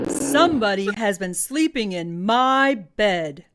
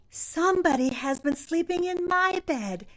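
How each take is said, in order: First: It is said in a big, booming voice. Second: It is said in a loud, shrill little voice.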